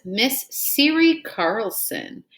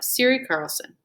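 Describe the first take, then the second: First: Each syllable drawn out for the class; slow careful reading. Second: Said in the usual way. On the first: Shown as a demonstration. Teacher to pupils, modelling a new name slowly. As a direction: read the name out slowly so children can follow.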